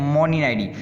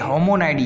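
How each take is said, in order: First: The word begins with an M sound. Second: The word begins with an H sound. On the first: The speaker calls it wrong. "But ये मोनिनाइडी नहीं है" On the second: The speaker calls it right. "ये होमोनाइडी है"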